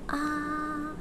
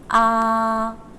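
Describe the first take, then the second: First: The sound is said very softly. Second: The sound is said very loudly. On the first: "now say it as soft as you can" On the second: "if you say it loud"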